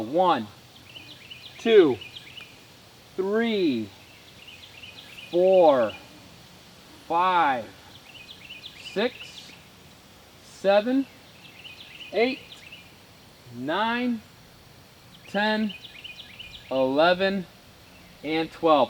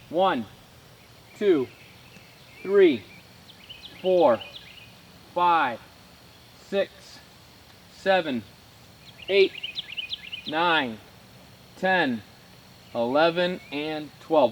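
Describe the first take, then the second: First: The counting is slow and relaxed. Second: The counting is a little faster.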